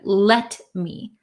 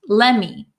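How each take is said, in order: First: The t sound is clearly pronounced. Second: The t sound is dropped between the words. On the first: "instead of let me" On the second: "So this T kind of disappears in let me"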